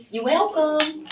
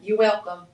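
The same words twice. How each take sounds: First: Pitched up high, teasing; playful high singsong. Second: Said in the usual way. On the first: Pretend. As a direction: sing it back sweetly, much higher. Replying to Tyler's thanks.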